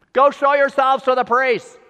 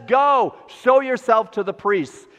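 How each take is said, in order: First: Called out loud and high across the distance; yelled back. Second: Said in the usual way. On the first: Retold or imitated. Jesus yelling back to the lepers fifty yards away, loud call. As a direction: yell it back to them from far off. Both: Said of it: "He just yelled back".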